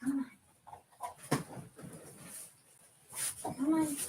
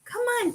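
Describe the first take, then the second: First: High and much softer "Come on"; soft coaxing. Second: Very high, soft call to the pet; coaxing the dog. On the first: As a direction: breathe "Come on" gently to the dog. Calling the dog again quietly. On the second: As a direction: lilt "Come on" way up to lure her over. Coaxing her dog over. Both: Real, not acted.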